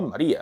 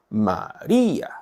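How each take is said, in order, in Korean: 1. 강세가 있는 음절이 가볍고 자연스럽게 발음되어 있어요. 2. 강세가 있는 음절이 많이 과장되어 있어요. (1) "자연스럽게 이렇게 발음하세요" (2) "이건 조금 오버하고 있는 겁니다"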